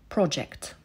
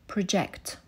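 First: The stress is on the first syllable. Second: The stress is on the second syllable. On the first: It is used as a noun. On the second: It is used as a verb. "Projektować"

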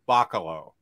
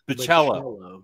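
First: The middle syllable lacks a stressed 'cha' sound. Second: The middle syllable has a stressed 'cha' sound. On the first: The speaker calls it wrong. "always jams me up for saying Chris Bacalo" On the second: The speaker calls it right. "emphasis correct. On the cha"

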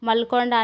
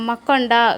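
First: The word keeps the l before konda. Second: The l becomes a doubled k before konda. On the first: "ಮಲ್ಕೊಂಡ ಅಂತನೇ correct" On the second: "ಅಲ್ಲಿ ಕ ಬರುತ್ತಾ"

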